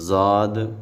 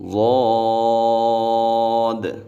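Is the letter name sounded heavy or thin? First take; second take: thin; heavy. First: The letter name is sounded thin and light. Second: The letter name is sounded heavy and full. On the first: The speaker calls it wrong. "ज़ाद ऐसे नहीं पढ़ेंगे" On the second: The speaker calls it right. "इसको मोटा पढ़ना है"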